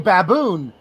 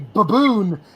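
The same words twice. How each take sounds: First: It is said the American way. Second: It is said the British way.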